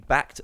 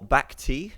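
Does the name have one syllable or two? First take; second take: one; two. First: The name is said as one syllable. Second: The name ends with an extra ee syllable. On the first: "I always say Bact" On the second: "I hear a lot of people calling him Bacti as well"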